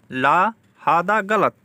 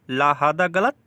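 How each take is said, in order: First: "ला हादा गलत" slowly, each word set apart; slow repeat. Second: Said in the usual way. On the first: Shown as a demonstration. Teacher repeats the Arabic slowly for learners. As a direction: drag it out so it sticks. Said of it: "slow repeat". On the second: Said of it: "repeated slowly".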